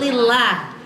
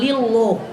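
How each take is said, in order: First: The final vowel sounds like a thin a. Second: The final vowel sounds like a thick o. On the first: The speaker calls it right. "tapi lillah" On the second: The speaker calls it wrong. "jangan lillah"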